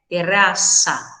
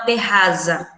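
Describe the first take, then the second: First: The z is a hissing s sound. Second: The z is a buzzing voiced z sound. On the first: The speaker calls it right. "colocar um som nesse Z aí como se fosse S S" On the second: The speaker calls it wrong. "o Z não possui o som da abelha nunca em espanhol"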